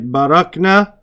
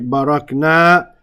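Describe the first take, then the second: First: The final vowel is short. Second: The final vowel is long. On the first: They (feminine) did it. "we say barakna without the long alif" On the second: We did it. "we say barakna with the alif"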